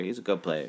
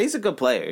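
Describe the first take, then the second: First: Lower, softer aside; quiet repeat. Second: Said in the usual way. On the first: Real, not acted. Conceding the opposing quarterback is good, quietly repeated. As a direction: say it again under your breath.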